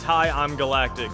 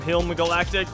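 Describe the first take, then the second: First: The first part is two syllables, 'Hi, I'm'. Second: The first part is one syllable, 'Hilm'. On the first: The speaker calls it right. "that's it's Hi, I'm Galactic" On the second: The speaker calls it wrong. "I think I called him Hilm Galactic"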